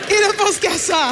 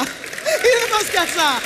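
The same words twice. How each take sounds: First: Drawn-out, higher exasperated complaint; slow exasperated sigh. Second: Even slower, higher wail; slower mock lament. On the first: Acted. Complaining to the women about men, slow and fed up. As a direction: stretch it out, fed up. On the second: Mocking men to the audience, drawn-out wail. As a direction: drag every word in mock despair. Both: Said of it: "repeated punchline, drawn out".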